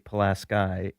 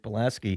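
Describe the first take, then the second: First: It is said the local county way. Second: It is said the original Polish way. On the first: This is how people from the county say it. "if you go to that county, they say Pulaski" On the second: This is the namesake's own name. "it's Kashmir Pulaski"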